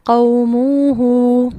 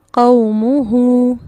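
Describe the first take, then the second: First: قوموہ with both vowels drawn out equally, very slow and loud; wrong pronunciation. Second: قوموہ with long final واو, very slow and loud; correct pronunciation. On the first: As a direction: stretch قوموہ wrongly as a demo. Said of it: "اس لفظ کی غلط pronunciation کیا ہوگی؟". (غلط تلفظ، قوموہ کو بہت کھینچ کر) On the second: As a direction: model قوموہ correctly, drawing out only the end. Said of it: "یہ لفظ کس طرح پڑھا جائے گا؟". (درست تلفظ، قوموہ میں آخری واو کو کھینچ کر) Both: Shown as a demonstration.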